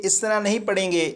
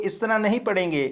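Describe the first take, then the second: Both takes have the same delivery.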